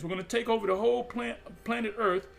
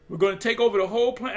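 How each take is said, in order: First: Said in the usual way. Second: Emphatic declaration. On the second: Acted. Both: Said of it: "I keep saying this".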